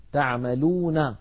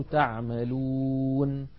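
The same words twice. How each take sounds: First: تعملون with the final نون voiced: taʕmaluna; connected reading. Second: تعملون held long, ending on a silent نون: taʕmalun; pausal form. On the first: Teacher shows the word before the pause. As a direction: read تعملون with its vowel ending. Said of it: "لما نقف على المدود". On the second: Teacher recites the word stopped at the pause. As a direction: stretch the و in تعملون and stop on ن. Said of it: "فتصير". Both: Shown as a demonstration.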